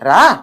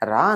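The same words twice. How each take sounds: First: The word is called with a firmer, changed intonation. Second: The word is called out gently and mildly. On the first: The child still does not come. "మారిందా intonation?" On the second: The child does not come. "రా అని పిలిచాం, పిల్లాడిని రాలేదు"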